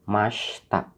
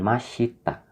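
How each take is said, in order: First: The i after sh is dropped. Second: The i after sh is clearly heard. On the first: The speaker calls it right. "Mashta, bukan mashita" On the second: The speaker calls it wrong. "bukan mashita"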